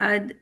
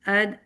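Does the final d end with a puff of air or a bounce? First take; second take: air puff; air puff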